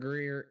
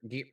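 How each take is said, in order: First: An R sound follows the first G. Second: No R sound follows the first G. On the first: The speaker calls it wrong. "I sometimes stumble over it and go Greer" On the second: The speaker calls it right. "I'm just going to say Gear"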